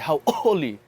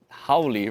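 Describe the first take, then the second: First: A glottal stop breaks the word in the middle. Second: The word runs together without a glottal stop. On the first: It means happy. The speaker calls it right. "there's a pause there" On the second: It becomes a different word, not happy. The speaker calls it wrong. "You don't want to be saying howly"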